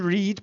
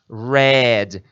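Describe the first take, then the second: First: The vowel is long, sounding like 'reed'. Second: The vowel is short, sounding like 'red'. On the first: It is the present form of the verb. "mas a pronúncia vai de read" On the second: It is the past participle of the verb. "A mesma pronúncia da cor vermelho"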